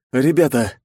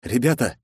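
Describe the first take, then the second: First: Crackling radio voice. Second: Doomed sigh. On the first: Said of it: "шуршащий от помех голос". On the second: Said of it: "обречённо выдохнув". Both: Acted.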